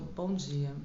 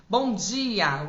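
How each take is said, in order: First: Lower, softer serious bom dia; a flat, sober greeting; serious good morning. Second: Lively, lifted bom dia; animated good morning. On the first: Coach demonstrating a serious greeting, sober. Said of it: "bom dia mais sério". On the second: Coach demonstrating a cheerful greeting, lively. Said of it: "um bom dia mais animado". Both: Shown as a demonstration.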